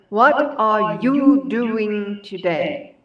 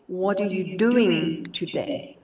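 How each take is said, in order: First: Every word is stressed separately and evenly. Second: The small words are reduced and run together.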